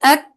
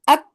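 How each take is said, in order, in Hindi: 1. अंतिम व्यंजन हल्की सांस छोड़ने के साथ समाप्त होता है। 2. अंतिम व्यंजन पूरी तरह बंद होता है, कोई सांस नहीं। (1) "आखिर में थोड़ी सी सांस जारी कर देते हैं।" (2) "सब कुछ बंद।"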